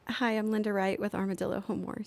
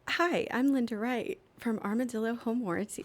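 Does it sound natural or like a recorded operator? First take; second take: natural; recorded operator. First: It is said in a natural speaking voice. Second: It is said like a recorded operator message.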